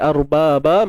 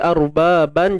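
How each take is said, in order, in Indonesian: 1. Kata ini berakhir dengan vokal, tanpa n. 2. Kata ini berakhir dengan bunyi n. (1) "bila kita berhenti kat sini, arbaban jadi arbaba" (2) "bila kita berhenti kat sini, arbaban jadi arbaba"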